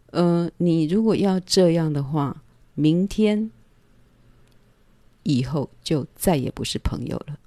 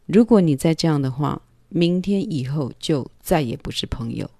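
First: Calm firm warning. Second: 明天 stressed, falling firmly; firm repeated warning. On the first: Warning the man in her bed, calm and firm. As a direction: set the boundary evenly, unhurried. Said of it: "这种事情我是很冷静的". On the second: Repeating the warning to him, firm stress on 明天. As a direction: lean on 明天 and let it drop decisively. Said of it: "我就很确定了". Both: Retold or imitated.

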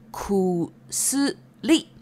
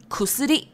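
First: Stretched out, each syllable set apart; slow syllable-by-syllable. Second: Said in the usual way. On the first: Shown as a demonstration. Teacher introducing the Japanese word for medicine, slow syllable-by-syllable. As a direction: say it slowly, syllable by syllable.

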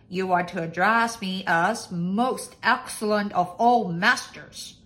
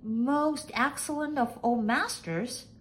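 First: Loud lordly dictation; loud, pompous master's voice. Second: Slow, high maid's echo; high maid voice, slowly echoing; questioning maid. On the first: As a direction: proclaim your own title as master. Master dictates his title. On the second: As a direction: repeat it slowly, high, in wonder. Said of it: "repeated Nellie Mae". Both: A narrator's reading.

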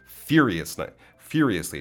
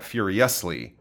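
First: "furiously" as FYUR-ee-us-lee, beat on FYUR; stress on first syllable. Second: "furiously" as fyur-ee-US-lee, beat on US; wrong stress. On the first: Teacher models correct stress, "furiously" stressed on FYUR. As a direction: hit the opening syllable of "furiously". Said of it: "the beginning syllable". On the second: Teacher shows the mistake, "furiously" stressed late on US. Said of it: "It's not furiously". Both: Shown as a demonstration.

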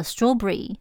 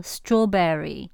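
First: Strawberry squeezed into two syllables, straw-bry; 两个音节的strawberry. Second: Strawberry with all three syllables, straw-ber-ry; 三个音节的strawberry. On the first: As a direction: clip strawberry to two beats. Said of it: "只有两个音节". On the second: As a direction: spell out strawberry slowly in three beats. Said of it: "三个音节". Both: Shown as a demonstration.

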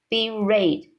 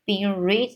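First: "read" said as "red"; corrected vowel. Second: "read" misread as "reed"; misread vowel. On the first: Narrator correcting the slip, "read" as "red". Reader corrects the misread word. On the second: Narrator slipping on the word, "read" as "reed". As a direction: say "read" with a long ee. Reader misreads, then corrects herself. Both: Real, not acted.

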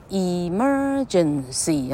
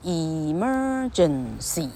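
First: Emergency stretched out slowly, each syllable apart; slow syllable demo. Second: Emergency drawn out very slowly and softer, rising at the end; very slow, soft demo. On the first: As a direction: say Emergency slowly so the lips show four moves. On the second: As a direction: stretch Emergency out gently, showing the lips. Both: Shown as a demonstration. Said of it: "你可以看嘴唇的动作".

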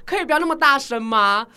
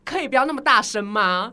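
First: Retold comeback, louder. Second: Retold comeback. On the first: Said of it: "我就说". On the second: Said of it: "我就转头跟他说".

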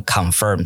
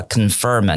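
First: "confirm" with a full "kahn" first syllable; learner's "kahn-firm"; heavy CON. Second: "confirm" with a weak "kuhn" first syllable; reduced CON. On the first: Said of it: "念成confirm". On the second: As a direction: say the first vowel of "confirm" as schwa. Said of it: "你如果把confirm念成confirm". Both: Shown as a demonstration.

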